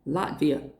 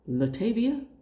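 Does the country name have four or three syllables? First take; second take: three; four. First: It is said with three syllables. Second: An extra vowel makes it four syllables. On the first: The speaker calls it right. "Latvia. Okay?" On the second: The speaker calls it wrong. "Girl, bye"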